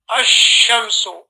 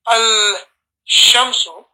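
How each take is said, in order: First: The 'l' merges into a doubled 'sh' sound. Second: The 'l' is pronounced separately before 'sh'. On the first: The speaker calls it right. "the lam gets added to the sheen, and you say" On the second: The speaker calls it wrong. "rather than saying al-shamsu"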